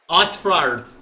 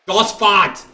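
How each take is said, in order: First: "Osfrard" tried with an r after the f, loud; "Osfrard" said with an extra r; fumbled pronunciation. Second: "Osfart" said as os-fart, louder and higher; "Osfart" as ass-fart, loudly; second pronunciation try. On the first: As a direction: stumble through "Osfrard" louder. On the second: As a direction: land on "Osfart" with more force. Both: Shown as a demonstration. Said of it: "I don't know how to pronounce it".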